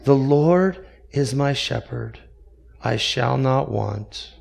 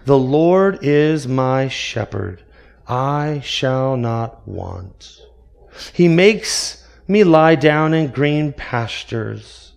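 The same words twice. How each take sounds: First: Put-on softer, shaky old man reciting; trembling old voice. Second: Slow, grand resonant recitation; trained orator voice. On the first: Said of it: "In a trembling voice that was cracked by time". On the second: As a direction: recite it like a famous orator, unhurried. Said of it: "In a beautifully trained voice that resonated". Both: A narrator's reading.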